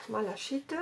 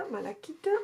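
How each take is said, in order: First: Malachite said with a soft sh, mala-SHEET; first try, malachite with the ch as sh; "sh" take. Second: Malachite said with a hard k, mala-KEET; second try, malachite with the ch as k; "k" take. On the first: Unsure which, she tries malachite with a sh sound. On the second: Unsure which, she tries malachite with a k sound. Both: Shown as a demonstration. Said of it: "Je sais pas si on dit malachite ou malachite".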